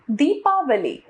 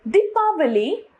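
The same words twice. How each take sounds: First: Said in the usual way. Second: दीपावली with a short first i; wrong pronunciation. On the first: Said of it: "इसका शुद्ध रूप". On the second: Shown as a demonstration. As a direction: say दीपावली as di-paa-va-lee, rising. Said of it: "अशुद्ध रूप".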